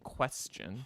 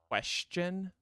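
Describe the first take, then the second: First: The middle consonant is an 's' sound. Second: The middle consonant is a 'sh' sound. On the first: "I've started saying question with like an S" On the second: "I no longer say question, like with an S H"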